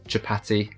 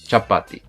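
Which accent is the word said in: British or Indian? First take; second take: British; Indian. First: It is said with a British accent. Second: It is said with an Indian accent. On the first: "British accent" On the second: "Indian accent"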